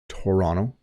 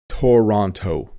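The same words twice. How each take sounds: First: The second t sounds like a d. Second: The second t is a clear t sound. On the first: The speaker calls it right. "the second T does have a D sound" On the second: The speaker calls it wrong. "If you don't know how to pronounce this, you might say Toronto"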